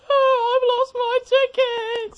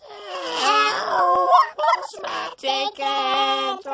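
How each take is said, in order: First: Mock lost-ticket wail. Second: Squealing high mock wail, stretched out; octave-up impression. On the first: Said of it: "and he just goes". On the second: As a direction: shriek it as an exaggerated falsetto schoolboy. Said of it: "his voice is up an octave or so".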